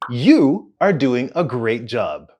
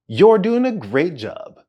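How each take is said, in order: First: You are is said as two full words. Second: You are is shortened into one syllable.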